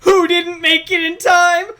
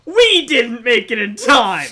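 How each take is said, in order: First: "Who didn't make it in time?" as an exaggerated question; questioning tune. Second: "We didn't make it in time" as an emphatic falling statement; answering statement tune. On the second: Acted. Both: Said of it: "Makoto says the question".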